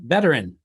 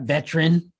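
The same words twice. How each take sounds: First: The word is said with three full syllables. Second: The word is squeezed into two syllables. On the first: The speaker calls it right. "three syllable M F and beep and beep beep beepity beep word" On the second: The speaker calls it wrong. "not veteran"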